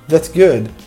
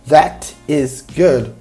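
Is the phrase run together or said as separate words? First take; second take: run together; separate. First: The words run together like one word. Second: Each word is said fully and separately.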